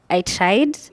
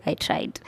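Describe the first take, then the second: First: Said in the usual way. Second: Soft, breathy whisper of an admission; whispered aside. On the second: Pretend. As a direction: whisper it like a confession. Repeats "I tried" differently.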